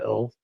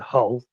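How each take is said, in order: First: The word begins without any H sound. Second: The word begins with an audible H sound. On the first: This is how northerners say it. "if you're further north they call it" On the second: This is how southerners say it. "anybody from like Birmingham or further south will they they'll call it"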